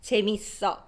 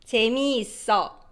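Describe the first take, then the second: First: It is said quickly with syllables merged. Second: All syllables are said fully and slowly.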